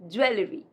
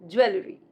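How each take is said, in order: The two takes are said the same way.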